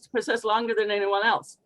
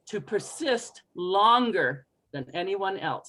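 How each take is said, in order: First: The phrase is rushed, with syllables run together. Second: The phrase is slow, each syllable given time. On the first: The speaker calls it wrong. "if you're going too fast and adding in your accent" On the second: The speaker calls it right. "Give it all its own time"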